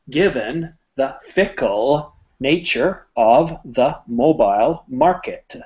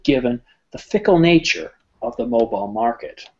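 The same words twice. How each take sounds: First: Each word is pronounced separately and distinctly. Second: The words flow smoothly into one another. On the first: The speaker calls it wrong. "I'm going to enunciate every word clearly" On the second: The speaker calls it right. "add flow"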